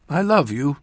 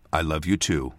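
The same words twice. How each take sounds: First: Higher, tender farewell; a mother's parting endearment, voiced higher; loving mother. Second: Understated loving answer; subdued affection. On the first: Mother to departing child, loving farewell. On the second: Child leaving mother behind, subdued affection. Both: A narrator's reading.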